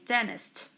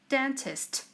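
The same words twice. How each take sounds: First: The T in the middle is dropped. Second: The T in the middle is pronounced.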